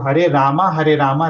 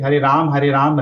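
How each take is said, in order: First: Rama ends with a full a vowel. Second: Rama ends on a bare m sound. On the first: The speaker calls it right. "तो वो हरे रामा है" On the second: The speaker calls it wrong. "माँ में हलंत लगा देते हैं।"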